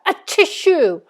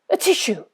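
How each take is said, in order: First: It is said loudly. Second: It is said very quietly.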